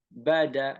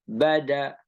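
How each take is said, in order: No difference in how they are said.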